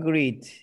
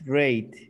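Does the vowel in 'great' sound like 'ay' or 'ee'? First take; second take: ee; ay. First: The vowel sounds like 'ee', as in 'greet'. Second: The vowel sounds like 'ay', as in 'gate'. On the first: The speaker calls it wrong. "No greet" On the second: The speaker calls it right. "Everything's great"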